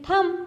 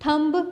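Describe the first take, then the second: First: The final b sound is silent. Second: The final b sound is pronounced. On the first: The speaker calls it right. "आप तो कहते हैं थम। तो यहाँ पे बी क्या है? साइलेंट है।" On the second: The speaker calls it wrong. "आप वर्ड थम को थम्ब तो नहीं कहते ना"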